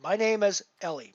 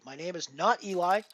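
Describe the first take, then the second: First: Ellie stressed as the right name, ending in "ee"; emphatic correction. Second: Firm NOT, then Eli said EE-lie; emphatic denial. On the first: Streamer quoting a poker player correcting his name, emphatic on Ellie. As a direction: insist on Ellie, EL-ee. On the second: Streamer quoting a poker player rejecting a mispronunciation, emphatic not Eli. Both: Retold or imitated. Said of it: "him say quite emphatically".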